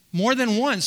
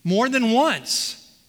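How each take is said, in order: First: Said in the usual way. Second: Slow, deliberate, each word weighted; slow emphasis. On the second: Shown as a demonstration. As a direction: lean on it slowly to stress it. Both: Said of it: "Do you see the, the emphasis there?".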